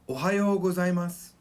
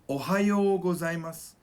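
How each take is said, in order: Both takes have the same delivery.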